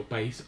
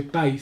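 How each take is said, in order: First: "país" in two syllables, stress on the í; correct hiatus pronunciation. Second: "país" run into one syllable, stress on the a; wrong diphthong pronunciation. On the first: Teacher correcting the word for students, "país" stressed on í. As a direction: say "país" as pa-ÍS, breaking the vowels. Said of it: "sino país". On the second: Teacher showing what one doesn't say, "país" as one syllable. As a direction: say "país" as PAIS, gliding into the i. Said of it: "no dice país". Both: Shown as a demonstration.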